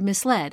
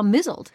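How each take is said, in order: First: It is said as mis plus led. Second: It is said like mizzled, rhyming with puzzled. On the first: "I knew there was a word misled" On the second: "I somehow also saw mizzled"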